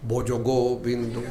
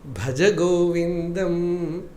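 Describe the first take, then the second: First: The vowels are rounded, as in Bengali. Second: The vowels sound like standard Sanskrit.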